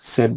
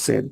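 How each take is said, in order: First: The vowel is short, like in 'bed'. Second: The vowel is short, like in 'bed'.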